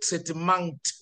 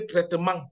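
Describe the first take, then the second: First: The final t sound is clearly pronounced. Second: The final t sound is not pronounced. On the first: The speaker calls it right. "In English, we will say traitement" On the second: The speaker calls it wrong. "So in French, you will say traitement"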